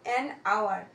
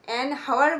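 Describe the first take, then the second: First: The word hour begins with a vowel sound. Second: The word hour begins with an h sound. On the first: The speaker calls it right. "বলি না, an আওয়ার" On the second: The speaker calls it wrong. "আমরা কি an হাওয়ার বলি? বলি না"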